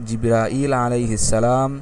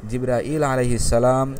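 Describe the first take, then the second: Both takes have the same delivery.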